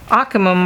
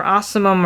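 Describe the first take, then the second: First: Ocimum with a k sound, AH-kuh-mum; hard c in ocimum, as in cat; hard-c pronunciation. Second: Ocimum with an s sound, AH-suh-mum; soft c in ocimum, as in city; soft-c pronunciation. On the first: Reviewer looking up the basil genus, ocimum said with a hard k. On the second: Reviewer doubting the name she looks up, ocimum said with a soft s. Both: Shown as a demonstration. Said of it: "or however you pronounce it".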